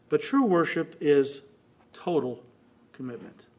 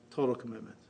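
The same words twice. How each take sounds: First: Said in the usual way. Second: Dropped to a near whisper, low and soft; soft low echo of the key words; hushed repeat. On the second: Shown as a demonstration. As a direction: let the phrase sink in quietly.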